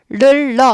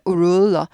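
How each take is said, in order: First: The word starts with flat, unrounded lips. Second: The word starts with slightly rounded lips. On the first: The speaker calls it wrong. "르러 아니고" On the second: The speaker calls it right. "우를 앞에다 살짝 넣으세요"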